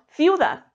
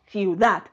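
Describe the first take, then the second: First: "ciudad" stressed on the first syllable, CIU-dad; "ciudad" said with a heavy CIU and weak dad; wrong stress. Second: "ciudad" stressed on the final syllable, ciu-DAD; slow "ciudad" with the weight on DAD; stress on last syllable. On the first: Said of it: "no decimos ciudad". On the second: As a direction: land firmly on dad in "ciudad". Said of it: "decimos ciudad". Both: Shown as a demonstration.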